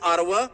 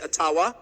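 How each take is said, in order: First: It is said the common English way. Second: It is said the Ojibwe-style way.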